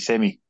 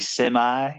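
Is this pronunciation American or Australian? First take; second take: Australian; American. First: It is said with an Australian pronunciation. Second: It is said with an American pronunciation. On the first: This is how the speaker's own group says it. "We say semi" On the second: This is how the other group says it. "You guys say semi"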